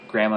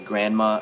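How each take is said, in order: First: The n and d sounds are dropped entirely. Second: The n and d sounds are clearly pronounced. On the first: The speaker calls it right. "we don't actually pronounce the N D" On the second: The speaker calls it wrong. "we wouldn't say grandma or grandpa"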